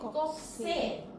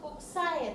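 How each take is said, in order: First: The ending is pronounced 'se'. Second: The ending is pronounced 'sae'. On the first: The speaker calls it right. "tapi kokse ya" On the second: The speaker calls it wrong. "bukan dibaca koksae"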